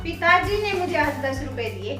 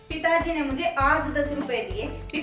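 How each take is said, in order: First: The stress falls on the word पिताजी. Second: The stress falls on the word आज. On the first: Father gave it, and nobody else did. "पहले पिताजी के ऊपर हम जोर लगाते हैं" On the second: It was given today, after a long wait. "बलाघात आज के ऊपर लगा है"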